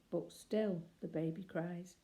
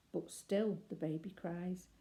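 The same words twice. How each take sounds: The two takes are said the same way.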